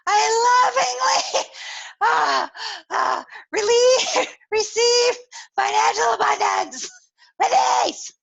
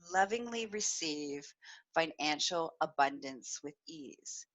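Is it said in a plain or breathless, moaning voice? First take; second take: breathless; plain. First: It is said breathlessly with moaning sounds. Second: It is said in a plain, even voice.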